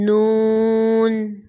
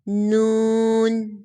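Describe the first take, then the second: First: The letter is said in careful recitation style. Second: The same.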